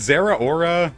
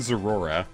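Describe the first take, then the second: First: The name ends with a separate 'aura'. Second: The name runs together into 'zerora'. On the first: "is it Zera Aura?" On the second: "I've been saying Zerora"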